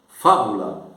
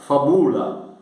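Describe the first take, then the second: First: The stress is on the first syllable. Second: The stress is on the second syllable. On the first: The speaker calls it right. "Deve colocar acento tônico na anterior" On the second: The speaker calls it wrong. "você não pode ler, pronunciar fabula, porque sobre o U tem um acento breve"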